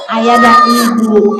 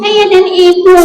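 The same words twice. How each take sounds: First: Said in the usual way. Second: Higher puppet voice; high-pitched echoed answer; puppet pupil. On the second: Acted. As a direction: parrot it back as a puppet.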